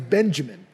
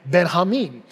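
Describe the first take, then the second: First: The J is a hard English J sound. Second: The J is said the Spanish way. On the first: "My name's Benjamin" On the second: "the J makes a different kind of sound in Spanish"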